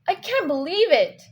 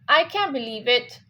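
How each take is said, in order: First: It is said surprised, with strong stress on "I can't". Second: It is said in a flat, neutral tone. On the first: "now I'm surprised and I say" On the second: "let's just say in a neutral tone, normal"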